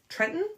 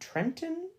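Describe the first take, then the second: First: The middle T sound is left out. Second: The middle T sound is clearly pronounced. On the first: The speaker calls it right. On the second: The speaker calls it wrong.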